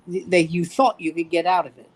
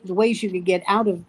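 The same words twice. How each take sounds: First: "thought" picked out, the rest falling away; stress on THOUGHT. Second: Said in the usual way. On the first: Shown as a demonstration. Correcting the ways out of serving, with emphasis on "thought". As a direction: lean on "thought" to correct yourself.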